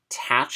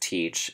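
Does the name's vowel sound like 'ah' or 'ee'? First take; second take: ah; ee. First: The name is said with an 'ah' vowel. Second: The name is said with an 'ee' vowel. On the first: This is how a character in the story says it. "Tatch is how he says it" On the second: This is how the name is usually said. "sure it's Teach"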